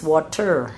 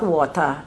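First: "water" ending in a firm sounded R; pronounced R. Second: "water" ending in an open "ah", no R; dropped R. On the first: Grandmother correcting her grandson, "water" with a clear R. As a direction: say "water" as WAH-ter, R fully sounded. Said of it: "they call their R's". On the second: Grandmother quoting the child's mistake, "water" without its R. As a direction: say "water" as WAH-tah. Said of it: "it is not". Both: Retold or imitated.

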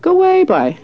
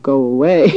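First: High-pitched, louder retold cry of disbelief; imitating an astonished friend; disbelieving exclamation. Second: Mock dismissal, drawn into a laugh; literal dismissal. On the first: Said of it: "she said". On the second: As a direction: say it as a real send-off, pitched down. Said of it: "And he thought she meant".

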